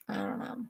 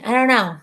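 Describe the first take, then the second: First: Hushed, to yourself; soft unvoiced repeat; whispered. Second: Said in the usual way. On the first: Real, not acted. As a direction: whisper I don't know under your breath. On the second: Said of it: "I don't know (repeat)".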